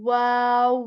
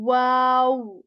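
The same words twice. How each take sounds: First: It starts with a rounded w sound. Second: The same.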